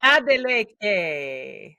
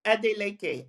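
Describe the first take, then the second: First: Adeleke drawn out very slowly, syllable by syllable; careful imitation. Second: Adeleke said as AH-deh-LEH-keh, even Yoruba syllables; native pronunciation. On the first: Host repeating the guest's surname after her, Adeleke slow and careful. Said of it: "I wanna say it with a Nigerian accent". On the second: Guest teaching the host her surname, Adeleke in Nigerian pronunciation. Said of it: "how do I say your, your surname?". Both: Shown as a demonstration.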